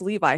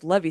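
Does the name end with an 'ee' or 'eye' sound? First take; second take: eye; ee. First: The name ends with an 'eye' sound. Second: The name ends with an 'ee' sound. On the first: The speaker calls it wrong. "it's not pronounced Levi" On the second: The speaker calls it right. "his name is Levy Sanders"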